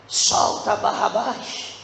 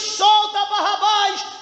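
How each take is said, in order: First: It is whispered quietly. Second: It is said in a loud voice.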